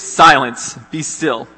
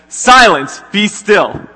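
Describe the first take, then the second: First: Sharp command on Silence, read from the passage; a firm rebuke to wind and waves; rebuke to the storm. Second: Big loud rebuke, high and booming; commanding shout. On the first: Jesus rebuking the wind and waves, a firm read command. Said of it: "he rebuked the wind and said to the waves". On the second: Jesus rising to silence the storm, booming commanding shout. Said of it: "But then Jesus gets up and he says". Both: Retold or imitated.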